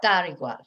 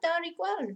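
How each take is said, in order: First: It is said in a sarcastic, dismissive tone. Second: It is said in a sincere, reassuring tone. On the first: The speaker is annoyed and brushing it off. "this one you can use it a little bit sarcastically. Ah, dar igual. Forget it" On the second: It genuinely does not matter. "It, it really doesn't matter"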